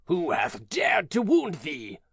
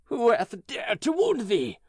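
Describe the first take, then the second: First: Slow, lightly louder giant; a touch of restrained anger, slowly; understated anger. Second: Higher, louder, slow outcry; angry cry. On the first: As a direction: giant asking who hurt the child, held back. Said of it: "he said". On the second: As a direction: cry it out in outrage. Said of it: "cried the giant". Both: Acted.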